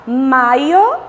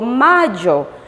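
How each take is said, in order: First: The y sounds like a vowel 'ee'. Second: The y sounds like a buzzing 'zh'. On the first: "o som do I" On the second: "o som do J"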